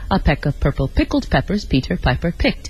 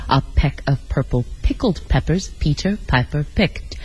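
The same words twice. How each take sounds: First: It is said at a moderate pace. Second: It is said slowly, word by word.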